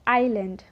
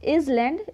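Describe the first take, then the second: First: The s sound is silent in the word. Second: The s sound is pronounced in the word. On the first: The speaker calls it right. "इसे हम कहेंगे आइलैंड" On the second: The speaker calls it wrong. "It's not इजलैंड"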